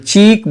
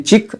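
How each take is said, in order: First: चीक with a long stretched ee; चीक, draw the ee out; slow चीक with a long ee; long vowel. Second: चिक with a short clipped i; चिक, i kept short; चिक said briefly, short i; short vowel. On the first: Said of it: "खींच कर बोलते हैं". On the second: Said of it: "सिर्फ कसरा के साथ कि चिक". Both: Shown as a demonstration.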